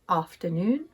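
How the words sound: It has a long southern A vowel. "In the south of England, ... these words are pronounced"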